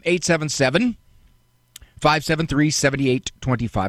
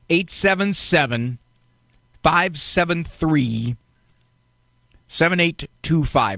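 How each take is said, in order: First: The number is said very quickly. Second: The number is said more slowly.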